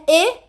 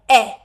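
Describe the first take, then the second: First: "E" said as a plain Portuguese e; wrong vowel. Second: "E" said as a short open English e, lower and louder; right short e. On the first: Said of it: "Não é E". ("E" errado, como em português) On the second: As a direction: give "E" its short English sound. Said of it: "é E". ("E" certo, curto como em inglês) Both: Shown as a demonstration.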